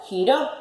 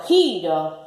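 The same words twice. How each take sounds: First: "giró" stressed on final ró; spring up onto RÓ in "giró". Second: "giro" stressed on first syllable gi. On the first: Teacher contrasting the accented word, "giró" stressed on ró. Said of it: "si le pongo tilde". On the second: Teacher contrasting unaccented word, "giro" stressed on gi. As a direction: stretch GI and let ro fall in "giro". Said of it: "Yo digo giro". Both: Shown as a demonstration.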